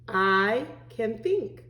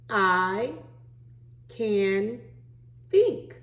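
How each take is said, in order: First: The words run together without pauses. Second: There is a pause after each word.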